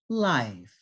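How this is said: The vowel is drawn out and the pitch slides down. "Pitch change down"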